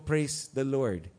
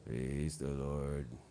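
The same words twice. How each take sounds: First: It is said with lively energy. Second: It is said flatly, without energy.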